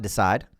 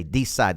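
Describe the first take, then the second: First: Said in the usual way. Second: "decide" with a long, stressed DEE; Southern pronunciation. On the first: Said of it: "It's not decide". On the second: Shown as a demonstration. Coach demonstrates his Southern word, "decide" as DEE-cide. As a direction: lean on the first syllable of "decide". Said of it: "the way you say it in the South".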